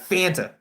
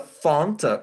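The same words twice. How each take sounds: First: The first vowel sounds like 'a' in 'ant'. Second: The first vowel sounds like 'ah' in 'font'. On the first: It sounds ordinary. "Or is it F A N T?" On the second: It sounds posh. "Like like bougie?"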